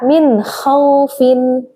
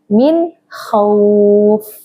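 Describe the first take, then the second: First: The last word ends with a vowel and n. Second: The last word ends on the f sound.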